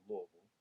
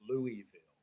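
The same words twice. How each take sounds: First: It has a country twang with vowels dropped. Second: It is said in a plain, common way. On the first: "a little country twang in it ... take a couple of the vowels out" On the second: "probably the most common pronunciation"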